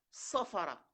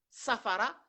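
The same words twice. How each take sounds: First: "sofara" with rounded first O, tune falling; emphatic O reading. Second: "Safara" with an open first A, tune rising; plain A reading. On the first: Teacher contrasting two words, rounded falling "sofara". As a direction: drop "sofara" at the end, first vowel O. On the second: Teacher contrasting two words, open rising "Safara". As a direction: lift "Safara" at the end, all A vowels. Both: Shown as a demonstration. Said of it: "la différence des sons".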